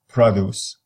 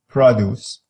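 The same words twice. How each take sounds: First: The stress is on the first syllable. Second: The same.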